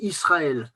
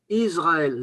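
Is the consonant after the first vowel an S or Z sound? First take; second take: S; Z. First: The first consonant is a voiceless s sound. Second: The first consonant is a voiced z sound. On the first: This is the standard French way of saying it. "En français, on dit Israël, sre" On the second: This is the Breton way of saying it. "Mais en breton, on dit Israël, zre"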